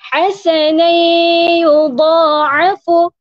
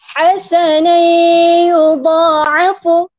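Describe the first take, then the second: No difference in how they are said.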